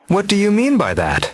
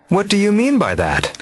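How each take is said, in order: No difference in how they are said.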